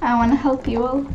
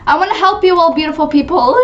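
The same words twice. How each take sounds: First: Softly spoken, understated; soft offer. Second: Higher, fuller playful proclamation; mock-grand offer, pitched up; grand helper. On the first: Pretend. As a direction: offer help in a small voice. First, soft take. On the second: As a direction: announce it to your adoring crowd. Repeats it to the crowd.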